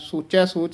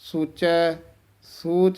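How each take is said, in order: First: The two words run on without a pause. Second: A short pause follows the first word. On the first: The speaker calls it wrong. "ਸੋਚੈ ਸੋਚ ਨਹੀਂ ਕਹਿਣਾ" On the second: The speaker calls it right. "ਥੋੜ੍ਹਾ ਜਿਹਾ ਠਹਿਰਾ ਯਮਕ ਜੀ ਲਾ ਕੇ ਬੋਲਣਾ"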